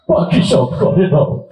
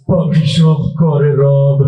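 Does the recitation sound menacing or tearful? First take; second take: tearful; menacing. First: It is recited in a tearful, crying way. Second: It is recited in a menacing, frightening way. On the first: "emotional মানুষ ... তুই কান্দিস না" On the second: "তোর আবৃত্তি শুনতে তো ভয় হয় রে"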